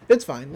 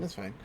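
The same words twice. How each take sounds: First: Said in the usual way. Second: Lower, much softer, fading out; trailing off. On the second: Real, not acted. Shrugging off a subtitle choice, fading to a soft mutter. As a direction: let it fall away under your breath.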